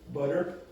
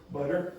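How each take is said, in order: No difference in how they are said.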